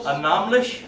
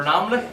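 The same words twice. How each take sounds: First: Annahmlich ending in a soft "sh". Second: Annahmlich without the final "sh" sound; alternative ending. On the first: Language learner trying annahmlich one way, final ch as "sh". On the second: Language learner offering annahmlich another way, short "lik" ending. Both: Shown as a demonstration. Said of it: "or annahmlich".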